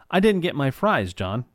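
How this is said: The name flows smoothly with the sentence.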